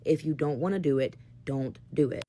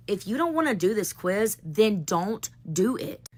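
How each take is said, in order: First: Resigned giving in. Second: Slow, firm challenge to the class; firm ultimatum. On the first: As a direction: give up and let them win. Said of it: "Okay, you win". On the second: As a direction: lay down the line, deliberately slow on the second half. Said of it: "I finally just paused and I looked at all them". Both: Retold or imitated.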